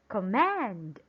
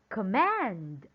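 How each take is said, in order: First: The stress is on the second syllable. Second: The stress is on the second syllable.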